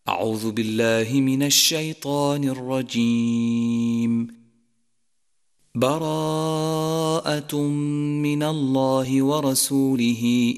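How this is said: There is a pause after the first phrase. "الوقف على الاستعاذة"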